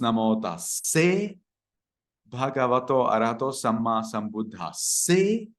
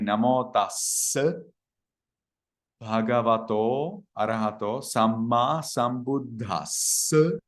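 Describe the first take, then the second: First: The vowel in question is pronounced as e. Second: The vowel in question is pronounced as a. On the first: "in the lay people's understanding then becomes e" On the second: "They will say"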